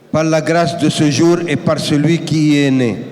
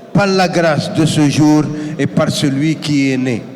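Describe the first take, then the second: No difference in how they are said.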